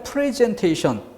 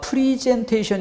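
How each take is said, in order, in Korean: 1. 첫 음절은 'eh' 모음이에요, 'pre'예요. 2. 첫 음절은 'ee' 모음이에요, 'pri'예요. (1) "프레젠테이션이 맞는 단어다" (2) "프리젠테이션이 아니라"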